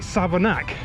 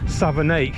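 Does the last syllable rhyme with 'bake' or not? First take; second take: doesn't rhyme; rhymes. First: The last syllable does not rhyme with bake. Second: The last syllable rhymes with bake. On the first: This is how the locals say it. "but locals call it Savernake" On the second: This is how the spelling reads. "it reads Savernake because it ends in A K E"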